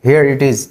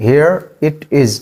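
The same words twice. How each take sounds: First: Said in the usual way. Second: Drawn out slowly. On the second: Shown as a demonstration. Teacher repeats the phrase slowly to model it. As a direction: stretch it for learners. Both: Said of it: "इसको English में कहते हैं".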